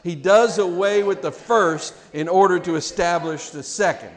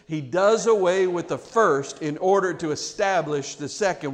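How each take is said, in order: First: It is said a little bit louder. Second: It is said at a normal volume.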